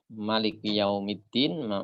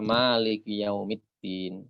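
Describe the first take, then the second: First: The first vowel of maliki is kept short. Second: The first vowel of maliki is held long. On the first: "Kalau dibaca pendek" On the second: "dengan membaca panjang huruf ma"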